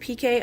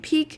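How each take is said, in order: First: It is said as two separate letters. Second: It is said as one single-syllable word. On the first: This is the speaker's own way of saying it. "I say P K" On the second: This is how other people say it. "others say peak"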